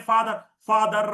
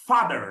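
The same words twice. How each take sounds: First: ഫാദർ with the r rolled hard, slower and louder; Malayali r. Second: ഫാദർ with no r, lower, as fah-dhuh; correct pronunciation. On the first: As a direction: lean on the r in ഫാദർ. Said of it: "നമ്മൾ ആർ ഇങ്ങനെ കൂടുതൽ ഉച്ചരിക്കും". (ആർ കൂടുതൽ ഉച്ചരിച്ച് ഫാദർ) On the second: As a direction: drop the r in ഫാദർ. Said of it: "ഇതിന്റെ pronunciation നോക്കിയേ". (ആർ ഇല്ലാതെ ഫാദർ) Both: Shown as a demonstration.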